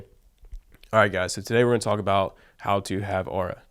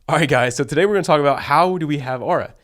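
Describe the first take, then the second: First: It is spoken without a smile in the voice. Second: It is spoken with a smile in the voice. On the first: The speaker calls it wrong. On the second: The speaker calls it right.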